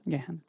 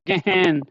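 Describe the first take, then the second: First: The h sound is light and soft. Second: The h sound is pushed out very loudly. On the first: The speaker calls it right. "so just say gehen" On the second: The speaker calls it wrong. "don't say her too much loud, okay, gehen, not like that"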